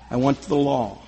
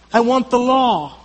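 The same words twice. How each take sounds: First: Much lower and softer, almost to himself; hushed low echo. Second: Said in the usual way. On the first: Acted. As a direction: murmur it as an inward confession. Hushed repeat of earlier line.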